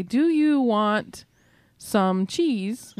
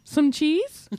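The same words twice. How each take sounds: First: "Do you want some cheese" in full, slowly and carefully; formal question. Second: "Some cheese" tossed out with a rising end; question-mark tune. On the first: Showing what Michiganders don't say, formal, slow "Do you want some cheese". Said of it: "ask questions in a formal way". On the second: Showing how Michigan really asks, "Some cheese" with rising tune. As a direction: make "Some cheese" a question just by lifting the pitch. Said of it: "brought it up with the question mark". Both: Shown as a demonstration.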